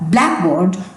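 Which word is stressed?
black. The stress falls on black.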